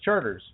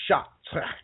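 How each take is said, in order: First: It is read like the English word charters. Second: It is said with a French pronunciation. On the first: The speaker calls it wrong. "because we're Americans, we say, oh, that says Charters" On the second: The speaker calls it right. "but it's really actually Chartres or Shot"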